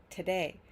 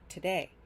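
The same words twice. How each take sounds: First: The second syllable is stressed, first reduced. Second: The same.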